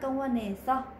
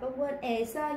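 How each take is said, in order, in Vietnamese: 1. Phụ âm nối mượt sang nguyên âm sau. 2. Phụ âm và nguyên âm sau được đọc tách riêng. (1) "người ta đọc luyến lên" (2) "đáng lẽ viết là con quên e so, đọc là con quên e so"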